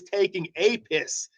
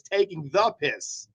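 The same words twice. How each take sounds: First: "a" said as a full "ay", set apart; stress on A. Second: "the" said as a distinct "thuh"; stress on THE. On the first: Man explaining what he misheard, "a" stressed as "ay". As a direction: lean on "a", pronouncing it "ay". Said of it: "That's why I was confused". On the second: Man correcting the phrase he misheard, stressing "the". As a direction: lean on "the" to mark the correction. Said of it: "So it's taking the piss". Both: Shown as a demonstration.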